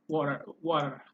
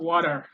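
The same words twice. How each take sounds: First: "Water" in the speaker's British-taught way; non-American WATER. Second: "water" the American way, with a tapped T and an R ending; American-style WATER. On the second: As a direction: tap the T in "water" and sound the final R. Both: Shown as a demonstration. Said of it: "Not water".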